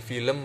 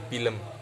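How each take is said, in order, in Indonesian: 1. Kata ini diawali bunyi F. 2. Kata ini diawali bunyi P.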